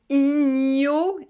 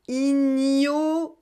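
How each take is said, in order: The two takes are said the same way.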